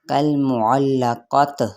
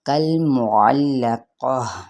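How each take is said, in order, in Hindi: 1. आख़िरी शब्द का अंत t की आवाज़ से होता है। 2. आख़िरी शब्द का अंत h की आवाज़ से होता है। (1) "अमूमन क्या गलती करते हैं लोग" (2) "ये गोल ता हा में बदल जाएगा"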